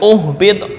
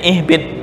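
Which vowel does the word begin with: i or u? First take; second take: u; i. First: The word begins with a u vowel. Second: The word begins with an i vowel. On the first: The speaker calls it wrong. "bukan uhbit" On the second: The speaker calls it right. "ini dibaca kasrah"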